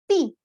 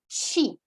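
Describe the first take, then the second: First: The syllable begins with a plain t sound. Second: The syllable begins with a ch sound. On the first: This is the Spanish way of saying it. "Em espanhol vocês dizem ti" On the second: This is how most of Brazil says it. "seria algo como chi"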